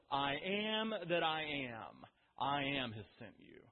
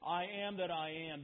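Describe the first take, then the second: First: Slow, solemn divine voice saying "I am that I am"; voice of God. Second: Said in the usual way. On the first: Acted. The Lord slowly telling Moses his name. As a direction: draw out "I am that I am" slowly, like God speaking. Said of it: "And the Lord says". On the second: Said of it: "that phrase".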